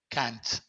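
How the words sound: It is said with an American vowel. "en Estados Unidos es más como"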